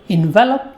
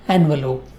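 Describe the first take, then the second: First: The stress is on the second syllable. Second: The stress is on the first syllable. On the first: It is the verb meaning to wrap or cover. "it is stressed on the second syllable" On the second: It is the noun for a paper cover. "which is stressed on the first syllable"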